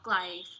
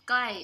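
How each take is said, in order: First: The word is stretched out with a lower pitch. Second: The word is short with a higher pitch. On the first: "sounds more stretched out and has a lower pitch" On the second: "pronounced with shorter and higher pitched tones"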